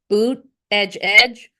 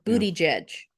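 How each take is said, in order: First: The name sounds like boot edge edge. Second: The name sounds like booty judge. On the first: "he pronounced it two ways. It's either boot edge edge" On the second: "or booty jedge"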